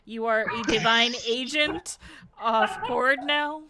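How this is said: The question sounds sassy and pointed. The asker is mocking or challenging the listener. The speaker calls it wrong. "I don't say it with that much sass"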